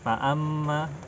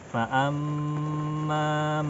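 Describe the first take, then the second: First: The nasal mm is held only briefly. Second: The nasal mm is held for a long time. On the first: The speaker calls it wrong. "segitu saja" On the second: The speaker calls it right. "jadi ditahan paling panjang"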